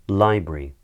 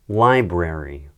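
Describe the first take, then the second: First: It is said in a British accent. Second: It is said in an American accent. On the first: "the second time I say them, I'll say them in a British accent" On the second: "the first time I say them, I'm going to say them in an American accent"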